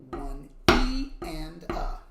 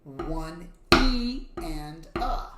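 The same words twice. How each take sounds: First: Slow count with E stressed; accent on E. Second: Slow count, E leaned on; accent on E. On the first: Teacher repeating the B pattern count. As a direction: drag it out and hit E. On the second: Teacher counting the B pattern with E accented. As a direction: stretch the count and punch the E. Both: Shown as a demonstration. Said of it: "for the B pattern".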